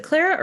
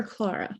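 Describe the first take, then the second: First: "Clara" offered as one option; first pronunciation of Clara. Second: "Clara" offered as the second option; alternative pronunciation of Clara. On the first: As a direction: say "Clara" the first of two ways. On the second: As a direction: say "Clara" with the other first vowel. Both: Shown as a demonstration. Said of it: "Is it Clara or Clara?".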